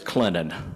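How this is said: It is said the way locals say it. The speaker is from the town. "If you're from there"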